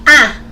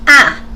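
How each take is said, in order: First: The pitch falls sharply from high. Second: The same.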